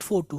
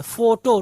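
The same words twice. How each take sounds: First: फोटो ending in "oo"; wrong pronunciation. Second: फोटो ending in a clear "o"; correct pronunciation. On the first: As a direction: say फोटो as "fo-too". (फोटो को "फोटू" की तरह) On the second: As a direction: say फोटो as "FO-toh". (फोटो के अंत में साफ़ "ओ") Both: Shown as a demonstration. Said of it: "not फोटो".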